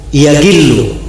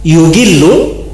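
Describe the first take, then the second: First: The first syllable has the vowel a. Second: The first syllable has the vowel u. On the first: They will not harbor hatred. "di fathah yanya" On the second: They will not betray. "Kalau yanya di dhamma"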